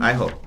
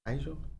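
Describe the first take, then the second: First: The middle consonant is an H sound. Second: The middle consonant is a J sound. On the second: "Is that how you pronounce that?"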